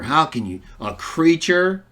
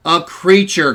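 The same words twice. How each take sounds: First: "creature" held up as a disbelieving question; mimicked stress on creature. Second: "creature" louder, firmly falling as a statement; affirming "creature". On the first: Mimicking Trinitarians who object to a created Son, stress on "creature". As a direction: lean on "creature", imitating an objector's doubt. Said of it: "They love to throw that emphasis on creature". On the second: Real, not acted. Preacher answering the objectors' question, emphatic "creature". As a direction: own the word "creature" emphatically.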